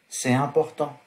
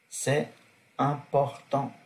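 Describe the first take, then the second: First: The t sound links into important. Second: No t sound links into important. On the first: "Liaison sona yang" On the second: "masona yang jigire"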